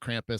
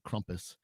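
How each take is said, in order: First: It is said with an American accent. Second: It is said with a German-style pronunciation. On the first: The speaker calls it wrong. "how our American accents say it" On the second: The speaker calls it right. "it's actually Krampus"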